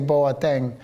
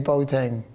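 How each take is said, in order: First: The name is pronounced the Dutch way. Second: The name is pronounced the English way. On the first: This is how it is said in the Netherlands. "in Holland we say Boateng" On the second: This is how it is said in English. "in English we say Boateng"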